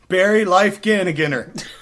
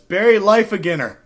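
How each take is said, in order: First: The name has extra added syllables. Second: The name has no extra added syllables. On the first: The speaker calls it wrong. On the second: The speaker calls it right.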